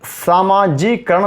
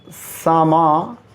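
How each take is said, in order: First: सामाजिकरण as "saamaa-jee-karan"; wrong form. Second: सामाजिकीकरण broken, "saamaa", pause, "ji-kee-karan"; correct form. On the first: Teacher showing the wrong word, missing kee. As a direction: say सामाजिकरण with only one k. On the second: Teacher dictating the correct word in pieces, kee added. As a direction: split सामाजिकीकरण and sound the kee. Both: Shown as a demonstration. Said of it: "सामाजिकरण नहीं होता".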